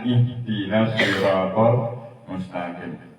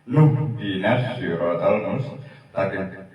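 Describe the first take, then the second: First: It starts fresh after a stop, with no linking. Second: It starts linked with a 'nu' sound. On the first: The reading stops after the previous word. "nastain berhenti, wakof berhenti. Terus dilanjutkan" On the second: The reading joins onto the previous word. "kalau dibaca wasol ... nunnya yang terakhir ... berharokat dumah"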